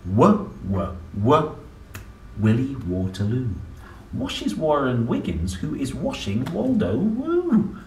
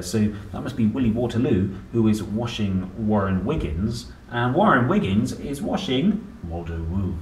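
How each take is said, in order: First: Rhythmic picture-book reading of the tongue twister; reading to children. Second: Said in the usual way. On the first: Acted. Parent reading the W page aloud, rhythmic. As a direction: bounce through the rhyme for a child. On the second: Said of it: "there's a lot of words there".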